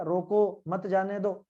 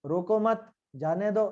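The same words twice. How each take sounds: First: रोको, then a break, मत जाने दो together; pause after रोको. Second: रोको मत together, then a break, जाने दो; pause after मत. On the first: Teacher shows what a comma changes, pausing after रोको before मत जाने दो. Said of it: "एक कोमे से कितना अंतर पड़ जाता है". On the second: Teacher shows the comma moved, pausing after रोको मत before जाने दो. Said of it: "वो बदल गया". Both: Shown as a demonstration.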